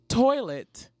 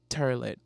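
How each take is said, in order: First: The first vowel is a standard 'oy'. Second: The first vowel sounds like 'er'. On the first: The speaker calls it right. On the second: The speaker calls it wrong. "Not turlet"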